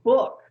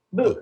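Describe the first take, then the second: First: Said in the usual way. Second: "book" said like "puke", with a long oo and a hard p; imitating the Colonel's "book" as "puk"; Dutch-tinged "book". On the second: Author mimicking the Colonel's Dutch "book" for the host. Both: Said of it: "the word book to him was book".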